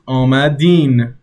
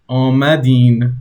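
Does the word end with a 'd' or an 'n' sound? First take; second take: n; n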